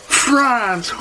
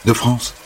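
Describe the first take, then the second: First: France! squealed very high and drawn out; thrilled gasp. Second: Said in the usual way. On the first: Acted. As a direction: gush over the word France!. Holly s'extasie sur la France. (France! lancé très aigu, émerveillé)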